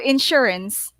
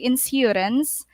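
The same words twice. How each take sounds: First: The middle consonant is a 'sh' sound. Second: The middle consonant is a plain 's' sound. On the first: The speaker calls it right. "It will sound like a polish" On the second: The speaker calls it wrong. "We don't say insurance"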